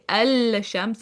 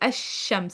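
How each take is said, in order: First: The L sound is clearly pronounced before shams. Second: The L is skipped and the sh doubles. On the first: The speaker calls it wrong. "I don't say el shams" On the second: The speaker calls it right. "I say ash-shams. I skip over my lam"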